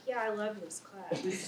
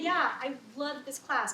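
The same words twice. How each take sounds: First: The voice sounds flat and contradicts the words. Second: The voice sounds sincere and matches the words. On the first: The speaker does not really love the class. "but they're like" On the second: The speaker really loves the class. "they may say"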